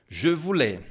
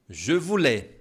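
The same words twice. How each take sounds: Both takes have the same delivery.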